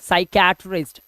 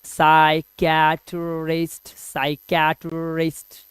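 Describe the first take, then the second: First: Said in the usual way. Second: psychiatrist stretched slowly, syllable by syllable; slow, clear teaching repetition of psychiatrist. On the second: Shown as a demonstration. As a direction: spell out psychiatrist slowly for students. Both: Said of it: "इसको धीरे धीरे pronounce करेंगे".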